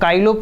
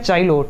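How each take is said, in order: First: The word begins with a k sound. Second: The word begins with a ch sound. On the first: "मैं काइलो बोलता हूँ" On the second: "या चाइलो"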